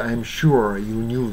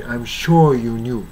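First: "sure" with a ringing American r; American pronunciation. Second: "sure" as "shaw", no r; non-rhotic British "sure"; British pronunciation. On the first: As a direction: curl the r in "sure". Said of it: "アメリカ式だと". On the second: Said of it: "まるでブリティッシュのように". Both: Shown as a demonstration.

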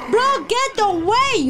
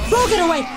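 First: Higher, louder and slower plea; desperate repeated yell at a friend; drawn-out shout. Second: Louder warning shout; sharp shout at a friend; urgent call. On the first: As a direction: stretch out the warning, pleading. Repeats warning more urgently. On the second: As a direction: tell him to back off fast. Warning friend about dog. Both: Real, not acted.

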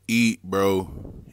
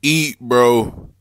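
First: Said in the usual way. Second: Eat bro yelled loud and high; shouted urging. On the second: Real, not acted. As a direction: shout it like cheering him on.

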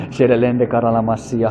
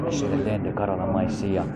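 First: Slow, hushed tongues; soft glossolalia, half whispered; speaking in tongues. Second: Soft, slow murmured tongues; quiet glossolalia under the breath; speaking in tongues. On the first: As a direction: murmur the syllables softly and slowly. Praying in tongues after laugh. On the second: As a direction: let the syllables flow low and hushed. Praying in tongues after amen. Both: Real, not acted.

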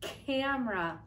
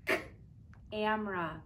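First: Said in the usual way. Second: Bare "k", a pause, then "amra"; beginning sound separated. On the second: Shown as a demonstration. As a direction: split camera after its first consonant, "k" then "amra". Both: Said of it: "Listen, my beginning sound is".

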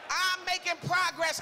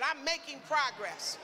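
First: Bold, higher-pitched proclamation; bold declaration. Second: Said in the usual way. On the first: Shown as a demonstration. Preacher showing the congregation how to say it, bold. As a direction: declare it boldly to the room. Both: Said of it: "Say it like you bold".

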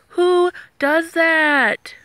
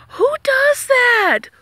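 First: Very slow, stretched-out repeat; drawn-out disbelief. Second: High, slow, breathless whisper of disbelief; incredulous whisper. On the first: Vlogger repeating her outrage at the guard, very slow and drawn out. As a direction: drag it out, still stunned. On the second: Vlogger aghast at the guard ditching Daya, high slow whisper. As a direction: whisper it like you can't believe it. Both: Real, not acted.

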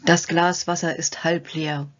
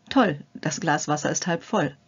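First: Slow, heavy, defeated "Das Glas Wasser ist halb leer"; gloomy pessimist. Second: Bright "Toll", then a confident fall on "halb voll"; upbeat optimist. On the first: Demonstrating a hindering thought to the viewer, slow and gloomy. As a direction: sigh it out like someone who has already given up. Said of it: "die hinderlichen Gedanken". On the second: Demonstrating the positive thought to the viewer, cheerful and confident. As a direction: sound pleased and sure it will work. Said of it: "Es beginnt mit dem Denken und der Wortwahl". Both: Shown as a demonstration.

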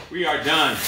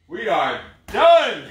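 First: Said in the usual way. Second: Slow, loud, drawn-out announcement; triumphant finish. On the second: Real, not acted. Coach declaring the end of the workout to his class, slow and loud. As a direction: savor the finish line.

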